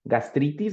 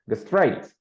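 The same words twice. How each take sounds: First: The word is pronounced with Spanish sounds. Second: The word is pronounced with English sounds. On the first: The speaker calls it wrong. "it's not going to be gastritis like in Spanish" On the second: The speaker calls it right. "but gastritis in English"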